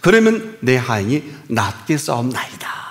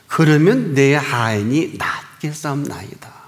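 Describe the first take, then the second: First: It is said at a normal pace. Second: It is said slowly and deliberately.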